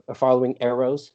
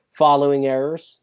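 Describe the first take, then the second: First: Said in the usual way. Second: "errors" said in place of "arrows", slipping on the word; mispronounced arrows. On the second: Real, not acted. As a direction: say "following errors" as an accidental slip. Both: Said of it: "not errors".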